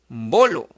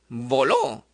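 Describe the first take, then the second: First: The stress is on the next-to-last syllable. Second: The stress is on the last syllable.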